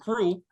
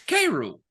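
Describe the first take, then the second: First: The name is said as one syllable. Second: The name is said as two separate syllables. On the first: This is how the author says it. "him and Cruel" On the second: This follows the normal spelling rules for apostrophes. "that's K rule"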